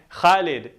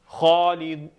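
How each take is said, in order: First: The first vowel is a light 'man' sound. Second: The first vowel is a deep 'awe' sound. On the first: The speaker calls it wrong. "some people might say" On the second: The speaker calls it right. "you should have the sound of ah, as in like the word ah or awful"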